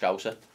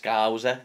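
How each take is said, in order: First: The first vowel is short and plain. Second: The first vowel is drawn out and overemphasized. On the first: The speaker calls it right. "it's just Scouser. That's better" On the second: The speaker calls it wrong. "overemphasizes the O U at the start. It's too long"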